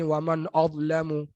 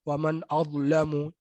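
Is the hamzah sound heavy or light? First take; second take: heavy; heavy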